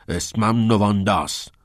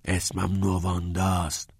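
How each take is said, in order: First: Firm, forceful correction; heated retort in a raised voice; angrily combative. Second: Slow whispered correction; hushed, breath-only insistence. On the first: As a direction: snap back, insisting on the name. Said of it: "با توپ پر گفت". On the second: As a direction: whisper it deliberately, word by word. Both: A narrator's reading.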